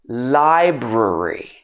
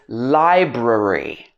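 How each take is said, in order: No difference in how they are said.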